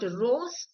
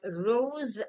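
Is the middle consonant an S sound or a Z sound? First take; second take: S; Z. First: The middle consonant is a hissing S sound. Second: The middle consonant is a buzzing Z sound. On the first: The speaker calls it wrong. "It is not rose" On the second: The speaker calls it right. "the S in the given words are pronounced as Z"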